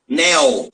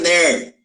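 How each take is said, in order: First: The word ends with a clear L sound. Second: The word ends with an R-like sound. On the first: "o L final" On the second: "fica parecendo o som do R"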